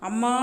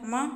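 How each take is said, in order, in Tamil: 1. அந்த சொல் நீண்ட அழைப்பு போல நீட்டி சொல்லப்படுகிறது. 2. அந்த சொல் சாதாரண நீளத்தில் சொல்லப்படுகிறது. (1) "ஒரு தொலைவில் இருக்கிறவங்கள கூப்பிடும்போது அது அளபெடை ஆகுது" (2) "அது சாதாரண ஒரு வார்த்தை"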